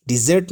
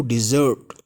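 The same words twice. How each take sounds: First: डिजर्ट with an open e, "dizet"; wrong pronunciation. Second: डिजर्ट said "di-ZURT"; correct pronunciation. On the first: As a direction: say डिजर्ट as "DIZ-et". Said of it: "नहीं कहेंगे इसको". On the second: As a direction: say डिजर्ट with a long "ur" in the second syllable. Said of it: "right pronunciation". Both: Shown as a demonstration.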